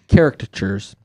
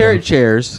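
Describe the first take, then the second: First: The word sounds like caricatures. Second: The word sounds like carrot chairs. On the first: The speaker calls it right. "No, caricatures" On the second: The speaker calls it wrong. "Sounded like you said carrot chairs"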